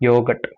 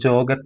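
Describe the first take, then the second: First: The word starts with a 'y' sound. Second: The word starts with a 'j' sound. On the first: This is the German pronunciation. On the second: This is how an English reader would read it.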